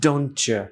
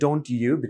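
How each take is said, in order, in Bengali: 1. দুটো শব্দ দ্রুত একসাথে মিশিয়ে বলা হয়। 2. দুটো শব্দ সম্পূর্ণ ও আলাদাভাবে বলা হয়। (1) "দ্রুত বললে" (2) "ডোন্ট ইউ বিকামস"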